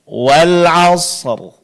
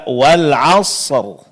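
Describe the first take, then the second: The two takes are said the same way.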